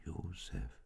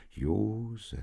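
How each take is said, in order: First: Hushed whisper to a sleeper; barely voiced, very soft whisper. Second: Voiced, raised call to a sleeper; mildly urging him to listen; admonishing. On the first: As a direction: whisper the name gently. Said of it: "und flüsterte". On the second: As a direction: call the name as a gentle warning. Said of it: "mahnte der Engel". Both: A narrator's reading.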